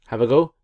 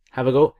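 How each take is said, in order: Both takes have the same delivery.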